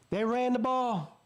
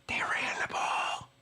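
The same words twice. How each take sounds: First: Slow, high-pitched triumphant statement; emphatic excitement. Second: Emphatic stage whisper. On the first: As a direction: say it aloud, stretched out and high. Repeats the point aloud, voiced. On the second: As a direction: whisper it slowly like a stunning revelation. Savouring the vindicating running play. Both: Real, not acted.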